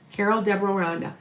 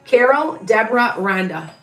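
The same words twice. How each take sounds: First: Said in the usual way. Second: Calling out names. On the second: Real, not acted.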